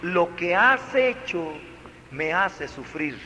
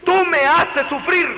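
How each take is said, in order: First: Gentle wording. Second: Sharp, high, louder accusation; tú me haces sufrir, pitched high and loud; accusing. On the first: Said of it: "No, le dijo". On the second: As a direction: hurl the blame at the child. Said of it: "No le dijo". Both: Shown as a demonstration.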